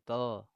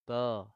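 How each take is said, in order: No difference in how they are said.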